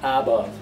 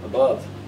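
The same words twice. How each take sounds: First: The first vowel is a full vowel. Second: The first vowel is a weak vowel. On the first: The speaker calls it wrong. "The a is not above" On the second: The speaker calls it right. "it's uh, weak form"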